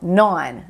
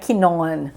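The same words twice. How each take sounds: First: The word starts with an N sound, no K. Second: A K sound is pronounced at the start. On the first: The speaker calls it right. "a gente não fala esse K no início" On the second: The speaker calls it wrong. "Não é known. Não"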